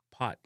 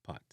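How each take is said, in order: First: POT with a short O; English-style "pot"; English pronunciation. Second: POT as "paht", short A for O; Jamaican pronunciation. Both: Shown as a demonstration. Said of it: "replace the short O".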